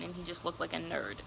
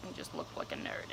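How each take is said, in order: First: Said in the usual way. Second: Under-breath whispered repeat; voiceless muttered aside. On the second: Real, not acted. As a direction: whisper it to yourself as a dry afterthought.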